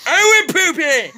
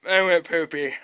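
First: High, loud I went poopy!; triumphant high yell; gleeful shout. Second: Said in the usual way. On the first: Pretend. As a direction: announce I went poopy! to the whole house.

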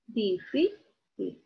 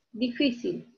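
First: Difícil very slowly broken up, stress on FÍ; stressed syllable. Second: Said in the usual way. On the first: Shown as a demonstration. Teacher finding the strong syllable, slow stressed FÍ in Difícil. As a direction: draw out Difícil syllable by syllable, leaning on FÍ. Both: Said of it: "en la sílaba fi".

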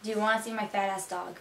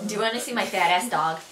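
First: Quick, soft Miami-accented sentence. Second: Buffalonian demo sentence; Buffalo accent. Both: Shown as a demonstration. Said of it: "Now for some sentences for you guys".

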